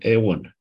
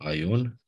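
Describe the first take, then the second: First: The first vowel is pronounced as 'e'. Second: The first vowel is pronounced as 'ai'.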